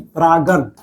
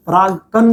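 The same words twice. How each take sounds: First: परागन said without the क sound, level and even; teacher gives the right word परागन, evenly; right term given. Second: परागकण said as the wrong word, with a hard क in the middle; wrong term named. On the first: Teacher corrects students' mix-up, says परागन evenly. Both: Shown as a demonstration. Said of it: "परागकण नहीं".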